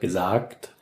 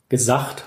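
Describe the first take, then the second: First: The final g is said as a plain stop. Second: The final g sounds like a rough ch.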